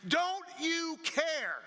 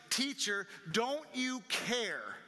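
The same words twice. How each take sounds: First: Very high, loud, long-drawn cry; acted scream. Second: Raised, higher-pitched appeal with a drawn-out "care"; mild shout. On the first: Disciples screaming at Jesus in the storm, acted scream. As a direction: scream it out slowly, stretching each word. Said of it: "they were screaming at him". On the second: Acted. Disciples waking Jesus in the boat, mild shout. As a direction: call out in reproach, only half shouting.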